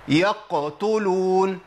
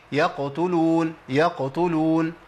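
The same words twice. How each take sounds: First: يقتلون with the qaf made hard like k, slow; wrong way. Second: يقتلون slow with a light bounce on the qaf; correct way. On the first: Teacher showing students the wrong qaf. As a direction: pronounce يقتلون as yaktulun. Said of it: "ما اقولش". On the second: Teacher showing students the right qaf. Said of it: "اما اقول ايه؟". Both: Shown as a demonstration.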